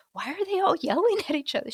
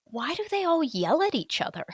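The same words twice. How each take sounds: First: Higher and quicker, incredulous newcomer; bewildered question. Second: Higher, baffled outsider asking in disbelief; bewildered question. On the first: Leaving the family event, asking partner in baffled disbelief. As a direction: rush it out in mock disbelief. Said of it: "remember leaving there like". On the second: Newcomer after partner's family event, mock baffled question. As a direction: lift it, puzzled and a little overwhelmed. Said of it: "And I'm like". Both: Retold or imitated.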